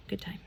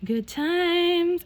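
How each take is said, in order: First: Very soft, understated remark; quiet aside. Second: Much higher, drawn-out repeat; playful high-pitched exclamation; high singsong. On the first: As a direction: let it drop softly, almost to yourself. Wry closing remark, then repeated. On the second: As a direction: lilt it up high, mock-cheerful. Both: Real, not acted.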